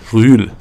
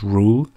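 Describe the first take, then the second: First: The vowel is a rounded front ü sound. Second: The vowel is a plain English u sound. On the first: The speaker calls it right. "but it is Marcos Rühl" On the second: The speaker calls it wrong. "the real pronunciation is not Marcos Ruhl"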